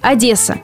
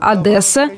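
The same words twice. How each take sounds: First: The 'd' is soft before the vowel. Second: The 'd' is hard before the vowel. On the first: The speaker calls it right. "настаивает на мягком произношении, то есть Одесса" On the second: The speaker calls it wrong. "жесткое произношение считается более украинским"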